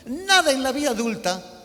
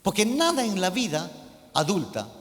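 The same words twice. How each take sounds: First: "nada" hit hard, louder and higher; emphatic repeat. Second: Said in the usual way. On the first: Shown as a demonstration. Preacher to his congregation, stressing "nada". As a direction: lean on "nada" so they listen. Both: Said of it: "póngame atención a esto".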